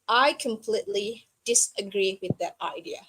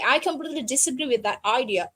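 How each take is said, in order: First: A short pause separates each word from the next. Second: The words run together without pauses between them. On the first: The speaker disagrees while staying classy. The speaker calls it right. "so you put the gap between each word" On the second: The speaker is angry. The speaker calls it wrong. "it's showing that you are mad"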